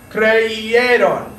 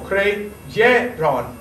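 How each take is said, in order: First: "Creyeron" said as "cre-e-ron", the y sound dropped; "Creyeron" said as the wrong example, y missing; mispronounced on purpose. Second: "creyeron" said very slowly as cre-ye-ron with a clear y; teacher's slow model of "creyeron", cre-ye-ron; slow correct pronunciation. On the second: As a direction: spell out "creyeron" syllable by syllable, the y clear. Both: Shown as a demonstration. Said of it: "No, creyeron".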